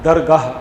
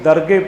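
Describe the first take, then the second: First: The word ends with a long 'ah' sound. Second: The word ends with a short 'eh' sound. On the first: The speaker calls it right. "इत्थे भी इहदा उच्चारण दरगाह" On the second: The speaker calls it wrong. "आम करके हाई नूं सिहारी होने करके असी दरगे पढ़ते हैं"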